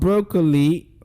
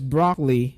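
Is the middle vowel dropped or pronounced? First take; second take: pronounced; dropped. First: The middle vowel is pronounced as a full syllable. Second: The middle vowel is dropped, leaving two syllables. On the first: The speaker calls it wrong. "Not broccoli, like we know it to be" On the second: The speaker calls it right. "Letter O there disappears"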